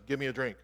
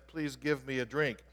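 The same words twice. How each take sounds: First: Quick, unsoftened request; rather blunt. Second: A polite, unhurried request; respectful and kind. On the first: English Bible wording of Jesus' request to the woman, rather blunt. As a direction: say it bluntly, without the please. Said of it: "Sounds like he's being rather blunt". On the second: Jesus asks the Samaritan woman for water, respectful and kind. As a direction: ask it courteously, words given room. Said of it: "he was being very respectful and kind". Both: Retold or imitated.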